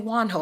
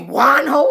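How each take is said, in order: First: The name is said plainly without extra force. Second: The name is said with strong, forceful emphasis. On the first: The speaker calls it wrong. "I can't just say Wanho" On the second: The speaker calls it right. "I gotta put emphasis on it"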